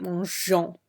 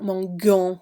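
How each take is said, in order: First: Mangeons with a soft J sound, said right; correct pronunciation. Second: Mangeons with a hard G, said the wrong way; wrong pronunciation. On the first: Teacher modeling the correct soft G in mangeons. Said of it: "we want mangeons". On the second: Teacher demonstrating the wrong hard G in mangeons. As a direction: show the mistake: mangeons with a hard G sound. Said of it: "we don't want mangeons". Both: Shown as a demonstration.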